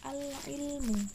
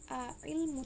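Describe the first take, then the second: First: The L sound after the first vowel is pronounced. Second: The L sound after the first vowel is dropped. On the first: The speaker calls it right. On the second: The speaker calls it wrong.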